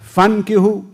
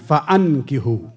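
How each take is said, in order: First: It is said as fankihu, without the extra vowel. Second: It is said as fa-ankihu, with the extra vowel. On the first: The single people themselves should marry. The speaker calls it wrong. "अलिफ पर फ़तह बग़ैर पढ़ें, उसको साइलेंट समझें" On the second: Parents and elders should arrange the marriage. The speaker calls it right. "ज़बर है अलिफ पर"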